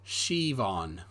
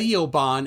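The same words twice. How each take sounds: First: Siobhan said slowly as "shee-vawn"; correct Irish pronunciation. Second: Siobhan said slowly as "see-oh-ban"; spelled-out mispronunciation. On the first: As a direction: say Siobhan with SH at the start and a V. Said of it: "S I is pronounced she". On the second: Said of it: "See, S I is pronounced she". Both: Shown as a demonstration.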